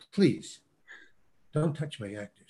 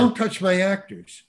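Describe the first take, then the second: First: Imitated quiet plea, pause after the first word; restrained request. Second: Imitated startled holler, pitched up. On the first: Director asks casting director to stop guiding actor, quiet restraint. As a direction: drop the volume and ask with restraint. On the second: Director startled by casting director handling his actor, retold holler. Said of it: "he was just startled".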